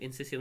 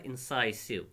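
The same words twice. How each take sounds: First: "incisive" with a short i in the middle; "incisive", middle syllable rhyming with "miss"; mispronounced. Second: "incisive" with a long "sigh" middle; "incisive", middle syllable rhyming with "eye"; correct pronunciation. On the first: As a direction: say "incisive" as in-SISS-iv. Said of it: "नहीं पढ़ना". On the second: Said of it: "incisive नहीं पढ़ना". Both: Shown as a demonstration.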